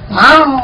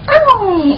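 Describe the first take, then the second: First: The meow is plain, without a coy tone. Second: The meow is said in a coy, prim voice. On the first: The cat used to answer this way before. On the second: The cat answers this way these days.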